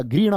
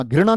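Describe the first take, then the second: First: घृणा with a longer 'ghree-na'; correct form. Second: घृणा with short vowel, 'ghrinna', pitched up; wrong form. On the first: Teacher giving the correct word, घृणा as 'ghreena'. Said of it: "घृणा होता है". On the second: Teacher rejecting a misspelling, घृणा with short 'ri'. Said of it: "घृणा नहीं होता". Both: Shown as a demonstration.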